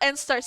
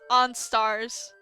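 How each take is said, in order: First: The first syllable sounds like 'en'. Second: The first syllable sounds like 'on'. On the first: The speaker calls it wrong. "It's not N-Stars" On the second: The speaker calls it right. "It's supposed to be pronounced on-stars"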